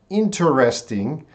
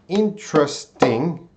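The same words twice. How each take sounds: First: The word is said with four syllables. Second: The word is said with three syllables. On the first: "that's going to be four syllables" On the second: "there's three syllables"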